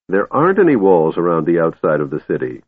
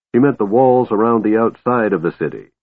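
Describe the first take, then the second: First: "any" leaned on with victory; triumphantly. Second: Said in the usual way. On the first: Acted. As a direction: stress on any, gloating. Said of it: "Tass said triumphantly".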